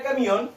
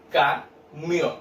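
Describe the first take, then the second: First: Said in the usual way. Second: "camión" slowly broken into ca and mión; split into syllables. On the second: Shown as a demonstration. Teacher shows children two syllables, split apart. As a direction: leave a gap between ca and mión in "camión". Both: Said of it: "Separo en dos sílabas".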